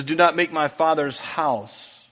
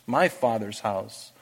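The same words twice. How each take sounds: First: Said in the usual way. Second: Soft echo. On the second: Acted. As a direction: repeat "my Father's house" softer and slower. Softer repetition of the phrase.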